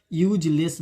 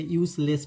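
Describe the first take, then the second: First: यूजलेस with a "j" sound, "yooj-less"; wrong pronunciation. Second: यूजलेस with a clear "s", "yoos-less"; correct pronunciation. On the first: Teacher warns students against यूजलेस said "yooj-less". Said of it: "यूजलेस नहीं पढ़ते". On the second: Teacher gives students the right यूजलेस, "yoos-less". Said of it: "यूजलेस पढ़ते हैं". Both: Shown as a demonstration.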